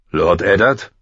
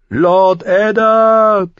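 First: Questioning call at ordinary pitch; man calling. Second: Very high, loud, long-drawn cry; Lyanna crying out. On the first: Man calling Eddard out of the dark, rousing call. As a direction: call to a sleeper, lifting at the end. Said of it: "hallte die Stimme eines Mannes". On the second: Lyanna calling to Eddard in his dream, crying out. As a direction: stretch the name into a distant scream. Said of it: "rief Lyanna erneut". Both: A narrator's reading.

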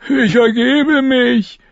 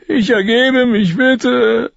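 First: Put-on much higher, slow frightened boy's voice; a scared boy crying out his surrender, high and drawn out; captured boy calling out, high and slow. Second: Much higher, pleading with ICH leaned on; a frightened boy begging, high and a bit slow; captured boy begging the soldiers, much higher. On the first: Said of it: "rief er sofort". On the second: Acted. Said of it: "Lommi surrendering again".

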